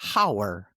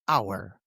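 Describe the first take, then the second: First: The word begins with an H sound. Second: The word begins without an H sound. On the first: The speaker calls it wrong. "not hour" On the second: The speaker calls it right. "but hour"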